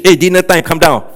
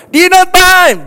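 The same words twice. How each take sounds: First: Said in the usual way. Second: High loud holler of "Dinner time!"; calling out. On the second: Retold or imitated. Pastor imitates a parent shouting "Dinner time!" before switching to a message.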